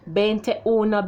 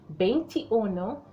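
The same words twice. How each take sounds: First: The vowel after 'veint' sounds like E. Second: The vowel after 'veint' sounds like I. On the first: The speaker calls it wrong. "So we don't say" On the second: The speaker calls it right. "We say"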